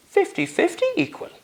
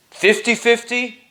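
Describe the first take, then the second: First: Much higher, asking "fifty fifty" in disbelief; "fifty fifty" questioned, not believing it; incredulous. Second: "Fifty fifty" stated firmly with a falling close; confirming. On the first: Richard disbelieving the offer. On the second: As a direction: assure him it's true. Master confirming the offer. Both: Acted.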